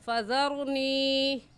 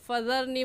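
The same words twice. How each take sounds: First: The final ee vowel is held long. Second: The final ee vowel is cut short. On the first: The speaker calls it right. "सही लफ्ज़ क्या है? ... इसको भी खींचेंगे" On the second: The speaker calls it wrong. "कह जाते हैं, जो कि गलत है"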